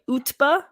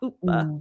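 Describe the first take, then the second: First: The T in the middle is clearly pronounced. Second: The T in the middle is soft or silent. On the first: The speaker calls it right. "is it a strong T?" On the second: The speaker calls it wrong. "a sort of a soft T"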